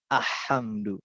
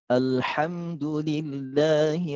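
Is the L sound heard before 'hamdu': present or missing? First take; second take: missing; present. First: The L sound is dropped before hamdu. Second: The L sound is clearly pronounced before hamdu. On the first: The speaker calls it wrong. "kenapa enggak ah, ahamdu?" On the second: The speaker calls it right. "Karena di situ ada al-qamariyah. Al-qamariyah, lamnya harus dibaca begitu ya"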